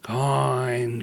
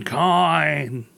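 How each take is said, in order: First: Mummy coin voice. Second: Dusty mummy rasp, rising; mummy coin voice. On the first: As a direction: groan it like a mummy. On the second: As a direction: moan it like a mummy. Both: Pretend. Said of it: "Can you throw that in one more time".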